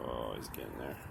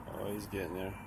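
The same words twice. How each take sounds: First: Low hushed whisper; whispering over a crib. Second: Said in the usual way. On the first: Real, not acted. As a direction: murmur softly beside the sleeper. Pet falling asleep, keeping quiet.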